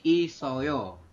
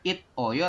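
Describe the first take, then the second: First: The consonant links as s into the vowel. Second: The consonant is a stopped t before the vowel. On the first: The speaker calls it right. "siotnya naik ke sini" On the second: The speaker calls it wrong. "bukan it oyo"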